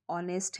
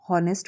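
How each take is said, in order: First: ऑनेस्ट said with a silent h, starting on the vowel "on-est"; correct pronunciation. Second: हॉनेस्ट said with a voiced h at the start, "hon-est"; wrong pronunciation. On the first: Teacher shows students the correct ऑनेस्ट with a silent h. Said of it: "तो एच silent है". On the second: Teacher shows the common mistake of saying हॉनेस्ट with an h. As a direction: mispronounce हॉनेस्ट by sounding the h. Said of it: "अब इसको कोई हॉनेस्ट पढ़ दे". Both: Shown as a demonstration.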